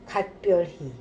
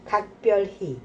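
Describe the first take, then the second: First: The first syllable ends with a t sound. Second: The first syllable ends with a k sound. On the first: The speaker calls it wrong. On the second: The speaker calls it right.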